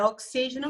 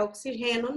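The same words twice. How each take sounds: First: "oxígeno" stressed on the second syllable, o-XÍ-ge-no; correct pronunciation. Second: "oxigênio" said as oxi-RRE-no, stress moved to the third syllable; incorrect pronunciation. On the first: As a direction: hit XÍ in "oxígeno". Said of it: "É oxígeno mesmo". ("oxígeno" com a tônica em XÍ) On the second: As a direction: shift the stress in "oxigênio" to a breathed Spanish g, oxi-HE-no. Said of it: "não é oxigênio". ("oxigênio" errado, dito oxi-RRÊ-no) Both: Shown as a demonstration.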